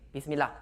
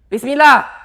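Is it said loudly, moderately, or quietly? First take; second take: moderately; loudly. First: It is said at a moderate volume. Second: It is said loudly, almost shouted.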